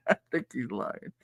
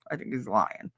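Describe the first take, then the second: First: Said through a laugh; teasing a friend while laughing. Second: Said in the usual way. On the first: Real, not acted. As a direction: giggle it out. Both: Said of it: "teasing a friend".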